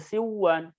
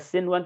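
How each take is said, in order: First: The n sound is dropped and merged into w. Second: The n sound is clearly kept before w. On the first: The speaker calls it wrong. "tidak dibaca siwan" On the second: The speaker calls it right. "Jadi dibaca sinwan"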